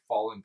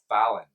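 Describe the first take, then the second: First: The name sounds just like the word 'fallen'. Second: The name is said in the Scottish way. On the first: The speaker calls it wrong. "like the band The Fallen" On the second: The speaker calls it right. "that's the way that last name is pronounced in Scotland"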